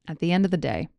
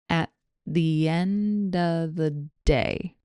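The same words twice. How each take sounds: First: The phrase is spoken at normal speed. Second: The phrase is spoken slowly. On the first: "Here it is again at normal speed" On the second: "Here it is slowly"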